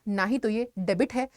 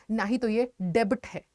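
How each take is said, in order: Both takes have the same delivery.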